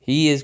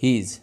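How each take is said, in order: First: The two words are said separately. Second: The two words are joined into one.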